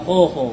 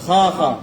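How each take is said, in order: First: The vowel is said with rounded lips. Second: The vowel is said with an open mouth. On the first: The speaker calls it wrong. "একদম খো খো হবে না" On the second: The speaker calls it right. "মুখটা খুলতে হবে"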